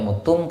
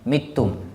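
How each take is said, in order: First: The first vowel is a rounded u sound. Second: The first vowel is an unrounded i sound. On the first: "baca dhammah aw muttum" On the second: "kadang dibaca mittum"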